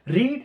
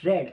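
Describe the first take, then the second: First: The vowel is long, as in 'reed'. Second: The vowel is short, as in 'red'. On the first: It is the base form of the verb. "पढ़ने का English क्या है तेरा, रीड है" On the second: It is the third form of the verb. "Pronounce करते समय अपन बोलते हैं रेड"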